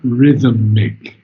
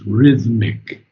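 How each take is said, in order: First: An extra vowel sound comes between th and m. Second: No vowel sound comes between th and m. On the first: The speaker calls it wrong. "It's not rhythmic" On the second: The speaker calls it right. "there's no um between the H and the M"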